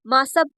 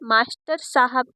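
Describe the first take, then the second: First: Middle sounds are dropped, shortening the phrase. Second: Every syllable is pronounced fully.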